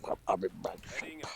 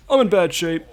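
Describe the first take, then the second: First: Low, whispered repeat; hushed, low answer to a prompt; whispery echo. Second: High, loud put-on voice; pitched-up, punchy prompt to copy; modelled line. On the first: Says the prompted line back. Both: Shown as a demonstration.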